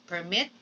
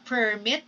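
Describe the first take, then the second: First: "permit" stressed on the second syllable, per-MIT. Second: "permit" stressed on the first syllable, PER-mit. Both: Shown as a demonstration. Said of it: "You see the difference".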